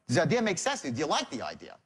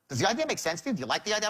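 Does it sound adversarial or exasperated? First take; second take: adversarial; exasperated. First: It sounds guarded and adversarial. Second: It sounds exasperated and impatient.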